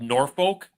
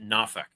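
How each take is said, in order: First: The word is said with an R sound. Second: The word is said without an R sound. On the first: "it's spelled Norfolk" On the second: "they pronounce it Norfolk"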